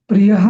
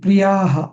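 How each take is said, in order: First: The vowel after pri-y is short. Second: The vowel after pri-y is long. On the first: The speaker calls it wrong. "प्रियः नाही" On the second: The speaker calls it right. "प्रियाः दीर्घ येतो"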